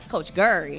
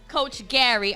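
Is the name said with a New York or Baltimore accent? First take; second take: Baltimore; New York. First: The name is said in a Baltimore accent. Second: The name is said in a New York accent.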